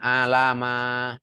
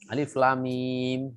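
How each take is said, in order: First: The letters are run together with vowels as one word. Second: Each letter name is said separately with stops. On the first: The speaker calls it wrong. "Bukan alama. Itu kalau T P A gagal" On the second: The speaker calls it right.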